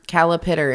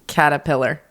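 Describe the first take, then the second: First: The middle sounds are swapped: calipitter. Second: The sounds are in normal order: caterpillar. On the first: A small child says it this way. The speaker calls it wrong. "Calipitter instead of caterpillar" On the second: This is the usual form. The speaker calls it right. "instead of caterpillar"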